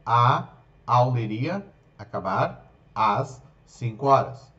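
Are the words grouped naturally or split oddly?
oddly. The words are split into odd groupings. The speaker calls it wrong.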